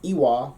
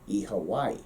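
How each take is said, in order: First: The second word is a short w syllable. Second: The vowels change, with an h but no v. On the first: "for us, Connacht, it's Iwa" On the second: "in Ulster, your Northern Irish... goes with their fun vowels"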